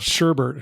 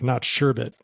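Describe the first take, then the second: First: The second syllable has an added r sound. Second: The second syllable has no added r sound. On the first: The speaker calls it wrong. "I always give people a crap for saying" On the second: The speaker calls it right.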